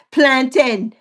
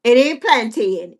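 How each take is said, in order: First: "Plantain": no A sound, just plan-tin; plantain the local way. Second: "plantain" with a long A, plan-tain; wrong pronunciation. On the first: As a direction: say "Plantain" as plan-tin, the last syllable short. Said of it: "How I say it?". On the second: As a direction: say the A in "plantain" slowly. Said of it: "make sure it ain't got no A in it". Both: Shown as a demonstration.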